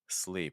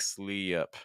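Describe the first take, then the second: First: The vowel stays steady up to the p. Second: The vowel glides into an extra uh sound. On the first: The speaker calls it right. "It's sleep" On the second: The speaker calls it wrong. "Make sure you're not doing e up like slee up"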